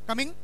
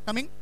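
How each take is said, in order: First: The voice rises like a question. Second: The voice rises like a question.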